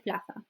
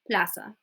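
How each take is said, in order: First: The z is said with a light th sound. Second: The z is said with an s sound. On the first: "en España se dice plaza. It's like a really light th" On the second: "it's like a s, an s sound"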